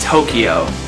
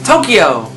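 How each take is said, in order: First: The word is said in a plain, flat way. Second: The word is said loudly, like an exclamation. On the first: The speaker calls it wrong. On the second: The speaker calls it right.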